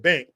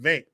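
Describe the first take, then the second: First: The word begins with a plain B sound. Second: The word begins with a V sound. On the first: "When she was going to the bank" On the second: "she said bank because she uh, Spanish was her first language"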